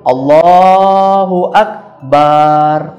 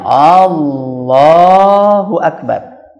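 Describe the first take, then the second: First: The final syllable bar is drawn out long. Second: The first vowel A is drawn out long. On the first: It says God is a drum. "panjang barnya" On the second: It asks whether God is the greatest. "ketika kita memanjangkan alifnya di depan"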